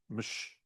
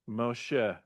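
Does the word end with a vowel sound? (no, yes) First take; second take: no; yes. First: It is one syllable ending in a sh sound. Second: It is two syllables ending in a vowel. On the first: The speaker calls it wrong. "It would be mush, mush, mush, right? Which doesn't work" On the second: The speaker calls it right. "So this is a mo, mo, she, right? Moshe"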